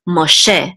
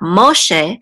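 First: The stress is on the last syllable. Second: The stress is on the first syllable. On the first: The speaker calls it right. "the accent is on the last syllable" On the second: The speaker calls it wrong. "so it's not Moshe"

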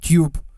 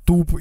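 First: The vowel is a 'yoo' sound. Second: The vowel is a plain 'oo' sound. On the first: This is how the English say it. "Если как англичане, то тюб" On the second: This is how country bumpkins say it. "Если как колхозаны, то туб"

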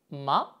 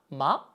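The two takes are said the same way.

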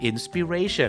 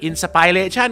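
First: The second syllable has a short 'ih' vowel. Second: The second syllable has the 'eye' vowel of inspire. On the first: The speaker calls it right. "ผิดสิครับต้องเป็น" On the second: The speaker calls it wrong. "คุณดันออกเสียงอะไร"

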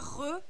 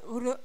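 First: The r is a throaty, non-rolled r. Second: The r is a light tap between r and l. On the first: The speaker calls it wrong. "C'est pas re" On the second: The speaker calls it right. "Le son, il a mi-chemin entre le R et le L"

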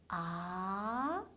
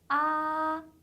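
First: The pitch rises clearly from low to high. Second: The pitch stays high and level throughout. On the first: "아래에서 위로 올라가는 게 확실한 음이에요" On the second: "높은 음에서 쭉 이어지는 음이에요"

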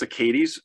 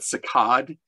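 First: It is said with a Midwestern American pronunciation. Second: It is said with a French-style pronunciation. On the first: The speaker calls it wrong. "in terms of my great Midwestern pronunciation" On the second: The speaker calls it right. "probably I wouldn't say proper French pronunciation"

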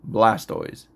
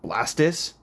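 First: The ending is said like the word toys. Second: The ending is said like the end of tortoise. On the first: The speaker calls it right. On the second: The speaker calls it wrong.

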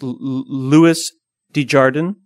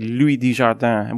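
First: The name is said with English pronunciation. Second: The name is said with French pronunciation. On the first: The speaker calls it right. "I think it's Louis Desjardins" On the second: The speaker calls it wrong. "I always pronounce it like he's French"

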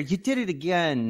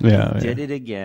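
First: The voice sounds warm and pleased. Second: The voice sounds sarcastic and annoyed. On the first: It is sincere praise. The speaker calls it right. "you want to hear" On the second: It is a complaint about a repeated mistake. The speaker calls it wrong.

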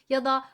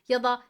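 The two takes are said the same way.

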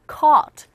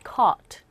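First: The vowel sits between ah and uh. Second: The vowel is not between ah and uh. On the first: The speaker calls it right. "아어 중간 발음" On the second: The speaker calls it wrong. "caught가 아니라"

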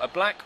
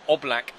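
First: The first vowel is a short 'uh' sound. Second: The first vowel is a full 'oh' sound.

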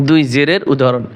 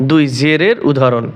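No difference in how they are said.

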